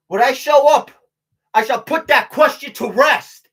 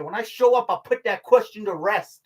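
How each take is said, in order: First: Loud, slow, emphatic proclamation; proclaimed motto. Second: Said in the usual way. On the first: Pretend. Tells viewers his new motto, loudly proclaimed. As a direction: belt it out like a battle slogan.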